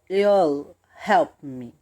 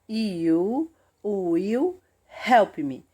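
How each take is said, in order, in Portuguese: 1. As palavras 'you will' se fundem em uma sílaba. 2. As palavras 'you will' são pronunciadas por completo.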